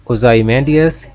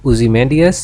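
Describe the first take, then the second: First: Ozymandias with "zy" said like "zai"; "zy" in Ozymandias rhyming with "eye"; first pronunciation variant. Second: Ozymandias with "zy" said like "zee"; short "oo-zi" opening on Ozymandias; alternative pronunciation. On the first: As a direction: say Ozymandias as oh-ZAI-man-dias. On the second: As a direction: say Ozymandias as oo-zee-MAN-dias. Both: Shown as a demonstration. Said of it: "या".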